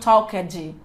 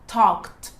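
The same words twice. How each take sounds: First: The word does not end with a plain T sound. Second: The word ends with a plain T sound. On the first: The speaker calls it wrong. "E não talked" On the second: The speaker calls it right. "o sonzinho dele é um sonzinho de T no final"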